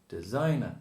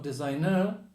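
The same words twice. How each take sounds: First: The last syllable has a reduced schwa vowel. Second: The last syllable has a full, unreduced vowel. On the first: The speaker calls it right. "And the last one is the schwa" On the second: The speaker calls it wrong. "Not designer"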